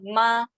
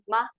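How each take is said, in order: First: The syllable stays high and level. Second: The syllable is short and unstressed. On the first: It means mother. "slightly change the tones become 妈 ... first tone" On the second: It marks a yes-or-no question. "a neutral tones"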